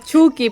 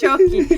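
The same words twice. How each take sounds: First: Chucky is read as spelled in Spanish. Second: Chucky is said the English way. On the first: This is how it is said in Venezuela. The speaker calls it wrong. "es en Venezuela que decimos Chucky" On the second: This is how it is said in Mexico. The speaker calls it right. "lo pronuncian bien. Ellos sí dicen Chucky"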